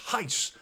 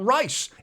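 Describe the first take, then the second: First: The name begins with an H sound. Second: The name begins with an R sound. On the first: The speaker calls it right. "It's Heiss. Apparently, a silent R" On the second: The speaker calls it wrong. "Not Rice"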